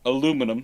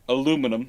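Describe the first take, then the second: First: It is said with four syllables, American-style. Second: It is said with four syllables, American-style.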